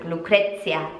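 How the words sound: The name is said with an Italian pronunciation. "like in the Italian accent"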